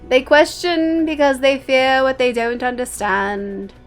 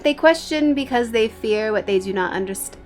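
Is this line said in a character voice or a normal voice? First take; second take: character voice; normal voice. First: It is read in a put-on character voice. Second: It is read in the speaker's ordinary voice. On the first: The speaker calls it right. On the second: The speaker calls it wrong.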